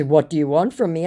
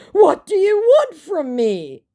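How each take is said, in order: First: Said in the usual way. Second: Much higher, slow, put-on pleading; mock begging. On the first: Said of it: "in response to". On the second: Scammer begging her, hammed-up high plea. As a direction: beg in a silly high voice. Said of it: "he finally begs".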